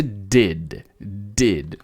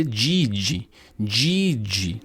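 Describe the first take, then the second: First: DID with two plain Ds; careful English DID; hard Northeastern D. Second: DID said as "djee-djee"; wrong two-syllable DID; Portuguese-style did. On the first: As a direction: say DID as one syllable, no J sound. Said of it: "Pense no sotaque do Nordeste". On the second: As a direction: turn both Ds of DID into J sounds, ending in ee. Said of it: "seguindo as fonéticas de português". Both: Shown as a demonstration.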